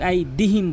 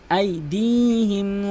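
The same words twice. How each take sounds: First: আইদিহিম with short "di"; missing elongation. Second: আইদিহিম chanted with long "dii"; one-alif elongation. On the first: Teacher showing the common error, short আইদিহিম. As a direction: say আইদিহিম plainly, no stretched syllable. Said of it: "এখানে এক আলিফ টান রয়েছে". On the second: Teacher correcting learners, আইদিহিম with drawn-out middle. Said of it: "এক আলিফ টান রয়েছে". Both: Shown as a demonstration.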